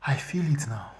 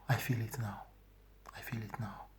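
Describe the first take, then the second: First: Said in the usual way. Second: A soft whisper, fading out. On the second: Real, not acted. Reliving the shame of the dream, in a whisper. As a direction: breathe the words, almost gone. Repeats the feeling.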